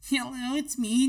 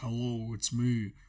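First: The voice is pitched artificially high. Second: The voice is pitched artificially low. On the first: "you got to do a pitched up voice and be an anime girl" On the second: "but like with a pitched down voice. Like"

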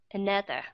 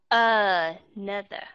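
First: The first vowel is glided over as a schwa. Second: The first vowel is pronounced fully and clearly. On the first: The speaker calls it right. "mà phải lướt qua another" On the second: The speaker calls it wrong. "cái âm ở phía đầu đó các bạn không có đọc là another"

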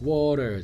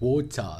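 First: It is said in an American accent. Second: It is said in a British accent.

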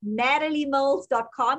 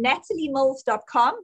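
First: It is said in an American accent. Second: It is said in a South African accent. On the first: "and then I'll try the American" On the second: "I'm going to say it in South African accent"

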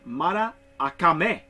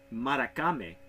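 First: The A vowel is sounded twice. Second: The A vowel is sounded only once. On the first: The speaker calls it right. "So the A you pronounce twice" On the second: The speaker calls it wrong. "I've been pronouncing it in Spanish"

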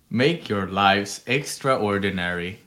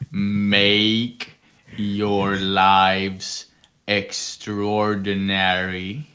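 First: It is said at normal speed. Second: It is said slowly.

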